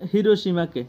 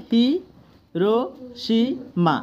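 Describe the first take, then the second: First: Said in the usual way. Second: "হি, রো, সি, মা" with a clear pause after each syllable. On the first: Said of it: "যেমন আমি বলি". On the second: Shown as a demonstration. Teacher splits Hiroshima into syllables for students, syllable by syllable. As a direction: break "হি, রো, সি, মা" into four separate beats. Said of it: "syllable ভাগ করে যদি উচ্চারণ করো".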